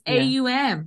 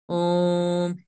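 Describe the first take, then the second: First: It is said as a drawn-out 'a-u-m' sound. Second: It is said as one short 'om' sound. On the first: The speaker calls it right. "firstly, it's AUM" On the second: The speaker calls it wrong. "I just find that to be hilarious and ignorant and funny when I have to do that in class"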